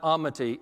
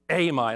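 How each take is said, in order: First: The name ends with an 'ee' sound. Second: The name ends without an 'ee' sound. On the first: The speaker calls it wrong. "we realized it's not Amity" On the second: The speaker calls it right. "it's Amite"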